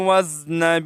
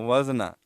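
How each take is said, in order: First: The word ends on a consonant. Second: The word ends with an added vowel. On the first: The speaker calls it right. "ठीक तरीके से" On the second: The speaker calls it wrong. "ये जम्बश भी ठीक नहीं है"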